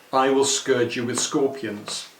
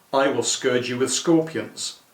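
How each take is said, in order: The two takes are said the same way.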